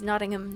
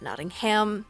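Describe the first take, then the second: First: It is said the local British way. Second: It is said the American way. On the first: The speaker calls it right. "which is Nottingham" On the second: The speaker calls it wrong. "not Nottingham"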